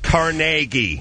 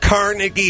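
First: It is said the newer, affected way. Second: It is said the older, everyday way. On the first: This is the pretentious correction. The speaker calls it wrong. "not Carnegie" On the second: This is what people actually call it. The speaker calls it right. "It's Carnegie Hall"

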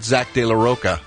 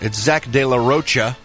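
First: The last name has a hard 'k' sound. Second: The last name has a 'ch' sound. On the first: The speaker calls it wrong. "hard K sound" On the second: The speaker calls it right. "the CH"

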